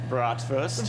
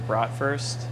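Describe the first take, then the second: First: It is said with a German accent. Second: It is said with a plain English accent.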